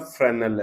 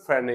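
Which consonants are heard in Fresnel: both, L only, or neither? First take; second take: L only; neither. First: The s is silent; the final l is sounded. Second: Both the s and the final l are silent. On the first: "तो ये बोलता फ्रेनल है" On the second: "British को देखोगे तो एल भी silent है"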